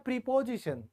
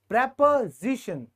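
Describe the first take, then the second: First: The first syllable sounds like 'pree'. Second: The first syllable sounds like 'prep'. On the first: "इसको बोला जाता है प्रीपोजिशन" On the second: "लेकिन जैसे मैंने बताया था आप सब इसे बोलिएगा प्रेपोजिशन"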